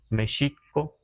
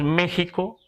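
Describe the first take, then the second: First: The x is sounded like sh. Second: The x is sounded like a breathy h. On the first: This is the original Nahuatl value of the letter. "los nahuas decimos México" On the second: This is the usual Spanish form used in Mexico. "está castellanizado decir México"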